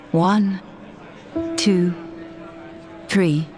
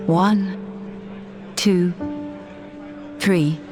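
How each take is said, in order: Both takes have the same delivery.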